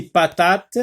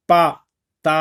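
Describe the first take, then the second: First: Said in the usual way. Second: "patate" in separate beats, pa, ta, te; teacher sounding out "patate" piece by piece; syllable by syllable. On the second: Shown as a demonstration. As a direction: break "patate" apart with pauses between syllables. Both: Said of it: "dans la première syllabe".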